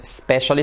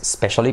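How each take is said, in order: First: Specially starting straight on sp; specially, no vowel before the s; specially clipped at the start; specially without initial e. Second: Specially, the other accepted form; specially as the second variant; alternative specially. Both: Shown as a demonstration. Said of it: "aunque también hay otra forma".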